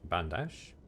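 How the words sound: It is said with a French-sounding pronunciation.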